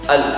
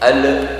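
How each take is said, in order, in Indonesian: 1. L di akhir berhenti tegas tanpa vokal. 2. Ada bunyi vokal tambahan setelah l di akhir. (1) "ini harus dihentak" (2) "tidak boleh"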